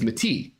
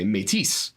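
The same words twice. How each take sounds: First: The final S sound is silent. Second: The final S sound is pronounced. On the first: "the way I believed that a word spelled M E T I S in French would be pronounced" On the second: "you actually pronounce the S"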